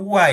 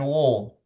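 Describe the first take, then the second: First: The vowel is light and open, like 'a'. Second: The vowel is heavy and rounded, like 'o'. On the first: The speaker calls it right. "Di situ wa ya" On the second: The speaker calls it wrong. "bukan wo"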